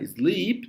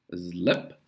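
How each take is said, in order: First: "Sleep" with a long stretched ee. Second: "slip" with a short, clipped i. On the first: Teacher shows the long vowel of "Sleep" against "slip". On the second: Teacher contrasts "slip" with "sleep", short i. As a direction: say "slip" with a quick short vowel. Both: Shown as a demonstration. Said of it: "que é um I longo".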